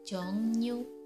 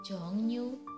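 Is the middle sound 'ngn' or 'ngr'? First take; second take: ngn; ngn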